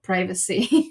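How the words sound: The word is said with an American pronunciation. "but privacy in U S"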